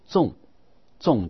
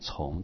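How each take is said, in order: First: The syllable is said with a falling tone. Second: The syllable is said with a rising tone. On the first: It means heavy or serious. "去声呢就重戒" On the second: It means repeated. "二声是念从"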